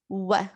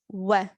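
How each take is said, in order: First: It starts with rounded lips, a 'w' glide. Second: The same.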